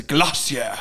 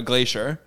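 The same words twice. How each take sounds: First: GLACIER said the British way, GLASS-ee-uh; David Attenborough. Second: Said in the usual way. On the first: Retold or imitated. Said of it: "I love the way he says". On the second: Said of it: "when he's talking about a glacier".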